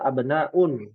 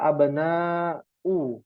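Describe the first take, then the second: First: The word ends with an added n sound. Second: The word ends on a bare u vowel. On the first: The speaker calls it right. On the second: The speaker calls it wrong.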